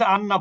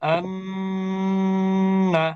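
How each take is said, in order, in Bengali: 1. ন ধ্বনিটা ছোট, এটা ধরে রাখা হয় না। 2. ন ধ্বনিটা নাক দিয়ে দীর্ঘ করে বলা হয়। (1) "আমি কিন্তু দেরি করি নাই" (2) "কিছু সময় অবস্থান করা হলো, এটাই হচ্ছে গুন্না"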